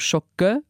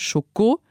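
First: The second syllable ends in a reduced vowel. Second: The second syllable ends in a full o vowel. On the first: This is the Luxembourgish form. "geht bei uns zu Schocke, weil es ein Reduktionssilbe ist" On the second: This is the French-style form. "das hat man im Französischen noch als O gesehen"

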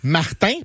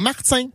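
First: The t is plain, with no hiss. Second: The t is followed by a z-like hiss. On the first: The speaker calls it right. "ça annule le Z qui était avant" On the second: The speaker calls it wrong. "pas Martin"

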